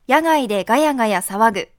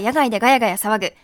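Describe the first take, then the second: First: It is read at a normal, unhurried pace. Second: It is said quickly, as a tongue twister.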